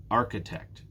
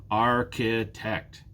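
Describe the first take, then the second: First: Architect joined up, strong AR; stress on first syllable. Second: Architect slowly in three beats, Ar, chi, tect; slow "Architect" down, each syllable separate. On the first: Teacher answering which one is stressed, "Architect" stressed on "Ar". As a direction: say "Architect" as one word, leaning on "Ar". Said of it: "it's the first one". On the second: Teacher showing three syllables, "Architect" slowly split in three. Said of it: "There are three syllables". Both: Shown as a demonstration.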